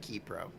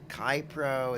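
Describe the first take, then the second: First: The first syllable has the vowel 'ee'. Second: The first syllable has the vowel in 'eye'. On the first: The speaker calls it right. "It's actually Keypro" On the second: The speaker calls it wrong. "Is it Kypro?"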